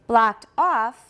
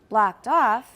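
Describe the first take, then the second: Both takes have the same delivery.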